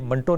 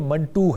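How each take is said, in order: First: The name ends in an 'oh' vowel. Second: The name ends in an 'oo' vowel. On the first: The speaker calls it wrong. "ये मंटो नहीं है" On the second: The speaker calls it right. "ये मंटू है। जिस तरह one टू है"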